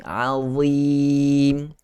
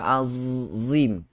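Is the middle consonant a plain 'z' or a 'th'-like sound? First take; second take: th-like; plain z. First: The middle consonant is a 'th'-like sound, tongue out. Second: The middle consonant is a plain 'z' sound. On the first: The speaker calls it right. "Nampak tak mulut kita? Ha, lidah kita terkeluar" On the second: The speaker calls it wrong. "Kalau kita sebut tak terkeluar"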